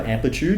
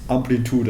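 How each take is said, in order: First: It is said with an English pronunciation. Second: It is said with a German pronunciation. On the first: This is the English word. "the word for amplitude" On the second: This is the German word. "You just put a German accent on it"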